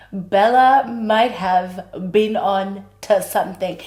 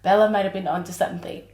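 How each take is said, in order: First: "Bella might have been on to something" said slowly, leaning on Bella; slow, drawn-out realisation. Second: Said in the usual way. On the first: Shown as a demonstration. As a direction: stretch it out, it finally clicks. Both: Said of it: "same line said twice".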